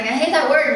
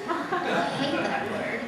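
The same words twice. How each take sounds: First: Much louder, higher exclamation; loud protest. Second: Laughing, higher and amused. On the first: Retold or imitated. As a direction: blurt it out in disgust. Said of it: "And I'm like". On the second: Real, not acted. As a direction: say it through a chuckle. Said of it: "I actually hate the word".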